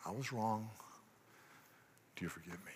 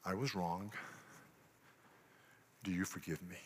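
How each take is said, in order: First: Barely gets the words out, soft; a soft, halting admission; choked confession. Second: Quiet confession. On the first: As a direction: swallow the words as if stuck. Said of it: "can't get it out". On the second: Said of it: "a little sentence". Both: Shown as a demonstration.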